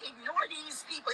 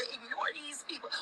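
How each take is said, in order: First: Said in the usual way. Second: Soft whisper. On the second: Real, not acted. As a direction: whisper "ignore these people" softly, without voice.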